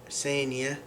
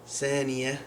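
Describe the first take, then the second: The two takes are said the same way.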